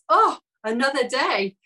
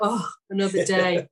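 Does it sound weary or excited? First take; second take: excited; weary. First: It sounds excited and eager. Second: It sounds weary and resigned.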